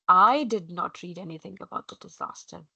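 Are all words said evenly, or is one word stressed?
one stressed. One word is said with strong stress.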